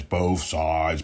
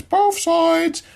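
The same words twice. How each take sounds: First: Said in the usual way. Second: "both sides" jumped way up in pitch; squeaky, insistent "both sides"; emphatic high repeat. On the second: Real, not acted. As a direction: hit it high to drive the point home.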